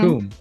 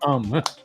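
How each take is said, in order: First: The vowel is a long 'oo' sound. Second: The vowel is a short 'uh' sound. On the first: The speaker calls it right. "So you pronounce it" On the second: The speaker calls it wrong. "she pronounced it Cum"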